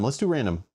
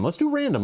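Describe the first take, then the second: First: Said in the usual way. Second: Much higher playful squeak; squeaky excited. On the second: Pretend. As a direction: chirp it out excitedly. Excited squeak then plain repeat.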